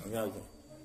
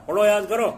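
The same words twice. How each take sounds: First: Low, soft trailing repeat of the order; teacher's dropped mutter. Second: Loud, high shout of a teacher ordering study; angry teacher's shout. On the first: Teacher repeating to a distracted pupil, low soft grumble. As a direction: let the order fall away to a low grumble. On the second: Teacher yelling at a distracted pupil, loud angry shout. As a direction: bellow it at a lazy pupil. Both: Retold or imitated. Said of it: "تو استاد نے غصے میں".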